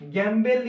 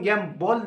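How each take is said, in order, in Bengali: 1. শেষ স্বরাংশটি bel-এর মতো শোনায়। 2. শেষ স্বরাংশটি bol-এর মতো শোনায়। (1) "বেল লিকা উচ্চারণ কো" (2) "শুদ্ধ উচ্চারণ"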